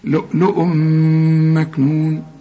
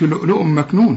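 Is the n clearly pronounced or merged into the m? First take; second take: merged; clear. First: The n merges into the m with nasal hum. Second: The n is pronounced clearly before the m. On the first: The speaker calls it right. "تنوين وبعده ميم في إدغام" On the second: The speaker calls it wrong. "ما تقولش لؤلؤ مكنون"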